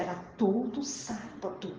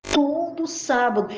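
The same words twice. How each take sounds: First: Said in the usual way. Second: "Todo sábado" higher and drawn out, first word hit hard; emphatic repeat. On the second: Real, not acted. Preacher stressing to church it was every week, emphatic. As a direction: lean slowly on "Todo", raised and firm.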